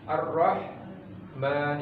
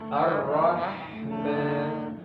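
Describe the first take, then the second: First: The h sound is cut off abruptly. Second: The h sound is held and flows continuously. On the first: The speaker calls it wrong. "itu terputus namanya" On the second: The speaker calls it right. "Jadi harus nyambung"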